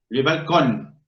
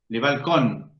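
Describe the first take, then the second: The two takes are said the same way.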